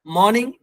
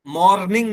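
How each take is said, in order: First: "मॉर्निंग" with the R left silent. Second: "मॉर्निंग" with a clearly pronounced R; wrong sounded R. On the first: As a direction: say "मॉर्निंग" as "maw-ning", no R. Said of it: "ये आर silent है". ("मॉर्निंग" में आर silent) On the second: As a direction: say "मॉर्निंग" as "mor-ning", R audible. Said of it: "मॉर्निंग नहीं है". ("मॉर्निंग" में आर की आवाज़ के साथ) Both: Shown as a demonstration.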